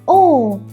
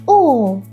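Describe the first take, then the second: First: The pitch falls sharply downward. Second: The same.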